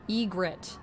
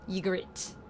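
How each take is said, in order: First: The name begins with an 'ee' sound. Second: The name begins with a 'y' sound. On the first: "But this is saying Egret" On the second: "like the Y, but like it's like y, y sound"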